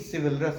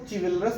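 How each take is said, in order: First: The word begins with an s sound. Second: The word begins with a ch sound. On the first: The speaker calls it right. "ये सिविलरस है" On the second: The speaker calls it wrong. "इसको चिविलरस मत पढ़ना"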